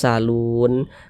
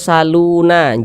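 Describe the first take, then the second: First: The word ends on a stopped n sound. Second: The word ends with an extra vowel after n. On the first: The speaker calls it right. "tapi dibaca salun" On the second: The speaker calls it wrong. "Jangan dibaca saluna"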